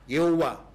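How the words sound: The name is said the Chinese way. "Bahasa Cina juga pakai nama itu kok. Mungkin agak salah mengucapkan"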